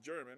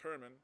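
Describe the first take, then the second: First: The name begins with a hard J sound. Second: The name begins with a soft H sound. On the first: The speaker calls it wrong. "so it's not pronounced German" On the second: The speaker calls it right. "it's pronounced Herman"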